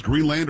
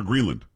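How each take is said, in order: First: Greenland with a full LAND at the end; full-vowel land. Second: Greenland ending in a weak "lund"; reduced ending. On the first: Host asks Sam which way to say it, full LAND. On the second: Host offers Sam the other option, reduced lund ending. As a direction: say Greenland with the second vowel swallowed, like lund. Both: Shown as a demonstration. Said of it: "Have we decided, Sam, it's Greenland or".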